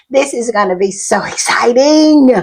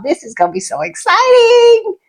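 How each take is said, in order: First: Said in the usual way. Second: Much higher, near crying with joy; tearful excitement. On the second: Real, not acted. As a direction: squeal it through happy tears. Overwhelmed after fan's VIP news.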